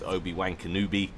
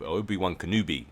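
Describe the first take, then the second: First: "Obi-Wan Kenobi" with WAN as "wank" and KENOBI as "kuh-NOO-bee"; cheeky mispronunciation. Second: "Obi-Wan Kenobi" with WAN as "wun" and KENOBI as "kuh-NOO-bee"; cleaned-up pronunciation. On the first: Commentator naming a player, "Obi-Wan Kenobi" said as "Obi-Wank-a-Noobie". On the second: Commentator correcting a player's name, "Obi-Wan Kenobi" said as "Obi-Wun Kenoobi". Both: Real, not acted. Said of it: "a less X-rated manner".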